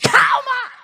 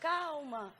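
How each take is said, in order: First: It is said sharply and forcefully. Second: It is said softly and gently. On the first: This shocks the upset person back to reality. The speaker calls it right. "é um choque de realidade" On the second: This fails to calm and only irritates the upset person. The speaker calls it wrong. "a pessoa calma, que não tem costume de ficar nervosa ... Ela diz assim"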